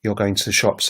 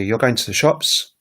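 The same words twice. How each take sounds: First: "You're going to the shops" with no rise at the end; statement intonation. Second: "You're going to the shops" rising on "shops"; rising question intonation. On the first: Teacher before turning it into a question, "You're going to the shops" as a statement. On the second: Teacher turning a statement into a question, "You're going to the shops" rising at the end. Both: Shown as a demonstration. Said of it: "turn it into a question".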